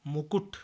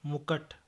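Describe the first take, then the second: First: Said in the usual way. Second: मुकुट with a in the second syllable; mispronunciation. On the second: Shown as a demonstration. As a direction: say mu-kaṭ for मुकुट. (मुकुट को मुकट बोलें) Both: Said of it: "मुकुट नहीं".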